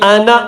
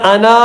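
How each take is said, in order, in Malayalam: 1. അവസാന സ്വരം ഹ്രസ്വമായി നിലനിർത്തുന്നു. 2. അവസാന സ്വരം നീട്ടി ദീർഘമായി ഉച്ചരിക്കുന്നു. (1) "അത് ഉച്ചരിക്കുകയില്ല എന്നതിന്റെ ചിഹ്നമാണ്" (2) "എന്ന് ഓതരുത്"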